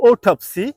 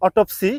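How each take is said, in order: First: Autopsy said AW-tap-see, first syllable stressed; correct pronunciation. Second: Autopsy said o-TOP-see, the common mistake; wrong pronunciation. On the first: Teacher modelling the correct word for learners. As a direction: model the right vowel. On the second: Teacher contrasting learners' mistake, plainly. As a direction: show the wrong vowel. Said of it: "This is not". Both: Shown as a demonstration.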